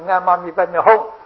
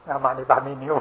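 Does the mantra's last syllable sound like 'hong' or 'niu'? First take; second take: hong; niu. First: The last syllable is pronounced like 'hong'. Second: The last syllable is pronounced like 'niu'. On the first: The speaker calls it right. "人家说你念错了啊，那个是阿玛尼拜咪吽" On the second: The speaker calls it wrong. "我还是念阿玛尼拜咪牛"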